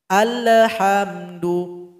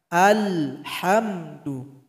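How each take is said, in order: First: An extra e-like vowel follows the L. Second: No extra vowel follows the L. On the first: The speaker calls it wrong. "ada bunyi e di situ" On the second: The speaker calls it right. "Tidak ada di situ tawalud"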